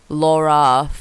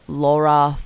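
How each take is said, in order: Both takes have the same delivery.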